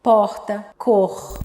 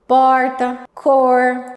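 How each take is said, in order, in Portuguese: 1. Os sons do R são suaves e leves. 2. Os sons do R são fortes e prolongados. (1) "eles não puxam o R" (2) "Você tá falando, puxando muito R"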